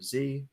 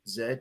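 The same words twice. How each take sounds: First: The letter is said as zee, American style. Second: The letter is said as zed, British style.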